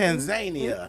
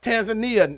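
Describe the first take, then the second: First: It is said the way Africans say it. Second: It is said in the common non-African way. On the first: The speaker calls it right. "as the Africans call it" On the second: The speaker calls it wrong. "it's not Tanzania"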